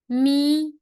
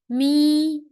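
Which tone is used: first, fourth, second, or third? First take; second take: first; first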